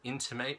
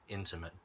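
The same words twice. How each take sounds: First: It is pronounced as the verb form. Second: It is pronounced as the adjective form. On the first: To hint or make something known. "the pronunciation is a little bit different" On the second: Very close or personal. "my most intimate friend"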